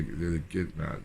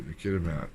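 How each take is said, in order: First: "Gitmat" clipped to two syllables, G-start; garbled place name. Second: "Kitimat" said KIT-uh-mat, three syllables; corrected place name. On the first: Speaker fumbling the town name as "Gitmat". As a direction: slip saying "Gitmat" before correcting. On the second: Speaker correcting himself to say "Kitimat" properly. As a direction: say "Kitimat" fully, K-start. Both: Real, not acted.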